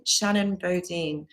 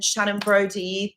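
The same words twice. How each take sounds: First: Bodine said as boh-DEEN, slow and careful; corrected name. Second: Brody said as BROH-dee, a mistaken reading; mispronounced name. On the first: Shown as a demonstration. Correcting the viewer's name after their comment, carefully. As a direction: Shannon Bodine, stress on the last syllable, deen. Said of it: "we pronounce it as Bodine". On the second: Real, not acted. Thanking a viewer by a misread name, plainly. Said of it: "I'm sorry if I said your name wrong".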